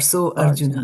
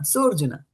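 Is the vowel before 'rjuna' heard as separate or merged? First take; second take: separate; merged. First: Two words, with the a of Arjuna sounded. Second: One word, with no separate a sound. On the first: The speaker calls it wrong. "I did not say Sa Arjuna, right? Or So Arjuna" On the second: The speaker calls it right. "combine this"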